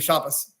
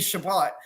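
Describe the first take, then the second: First: The word ends with an s sound. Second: The word ends with a t sound. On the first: This is the Ashkenazi Eastern European pronunciation. "the T on the end got sort of softened to an S" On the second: This is the traditional pronunciation. "traditionally it would be Shabbat"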